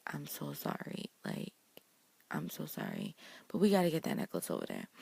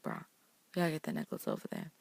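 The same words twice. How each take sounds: First: Compassionate apology. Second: Fast, matter-of-fact, no sympathy; just get on with it, bruh; blunt bruh. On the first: Emma apologizing to Elsa before taking the necklace, gently. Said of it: "she's trying to be compassionate". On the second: Emma telling Elsa bluntly to hand the necklace over, quick. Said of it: "but she's like, "Bruh". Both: Retold or imitated.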